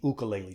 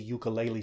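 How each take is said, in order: First: The word is said the Hawaiian way. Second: The word is said the usual English way.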